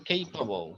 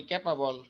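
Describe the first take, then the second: First: Capable with an "ay" sound, "KAY-pa-bol"; correct pronunciation. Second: Capable said the Bengali way, "ke-pa-bol"; common mispronunciation. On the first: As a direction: open capable on the diphthong "ei". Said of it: "কিন্তু আসলে কি হবে". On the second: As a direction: capable with a flat "ke" and a full "bol". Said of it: "যেমন আমরা বলি capable". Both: Shown as a demonstration.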